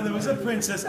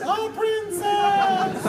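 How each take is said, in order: First: Said in the usual way. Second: Sky-high, drawn-out mock preacher echo; very high-pitched voice. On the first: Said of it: "the first time you say it regular". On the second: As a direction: stretch it out in silly falsetto. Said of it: "in a very high-pitched voice".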